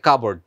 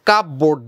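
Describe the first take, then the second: First: The p sound is left out. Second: The p sound is clearly pronounced. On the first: The speaker calls it right. "পি এর উচ্চারণটা আসবে না" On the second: The speaker calls it wrong. "কাপ বোর্ড না"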